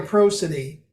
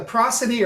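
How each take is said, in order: First: Prosody with a long o, PROH-suh-dee; long-o PRO. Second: Prosody with a short open first vowel, PROSS-uh-dee; first-syllable PROS. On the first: Unsure speaker offering the other pronunciation, PROH-suh-dee prosody. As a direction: say prosody starting like the word pro. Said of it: "it's either prosody or prosody". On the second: Unsure speaker offering one of two pronunciations, PRAH-suh-dee prosody. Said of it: "am I pronouncing that right". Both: Shown as a demonstration.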